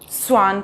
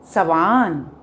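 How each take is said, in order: First: The s and w are said together. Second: An extra vowel comes between s and w. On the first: The speaker calls it right. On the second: The speaker calls it wrong.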